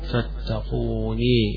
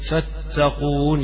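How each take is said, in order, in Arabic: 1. تنتهي الكلمة بصوت 'ee' الطويل. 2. تنتهي الكلمة بصوت نون عادي.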